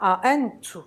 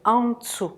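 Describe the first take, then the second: First: The N and T are split into separate parts. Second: The N and T run together as one cluster. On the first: The speaker calls it wrong. "C'est pas A-N-tu" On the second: The speaker calls it right. "Non, c'est Antsu. Nt"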